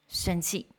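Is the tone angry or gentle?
angry. It is said in a harsh, angry tone. The speaker calls it wrong. "那个语气是如果很愤怒的话"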